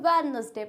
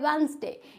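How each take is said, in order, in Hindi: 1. पहली d की ध्वनि बोली जाती है। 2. पहली d की ध्वनि साइलेंट होती है। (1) "कुछ लोग अब वेडनेसडे को क्या पढ़ते हैं" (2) "इसमें डी होता है साइलेंट"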